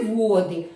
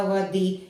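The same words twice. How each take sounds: First: «води» as VO-dy, with a strong «во»; stress on first syllable. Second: «води» as vo-DY, some water; stress on second syllable. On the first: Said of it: "це коли річка". (наголос на першому складі: «води») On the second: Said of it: "це коли дуже мало води". (наголос на другому складі: «води») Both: Shown as a demonstration.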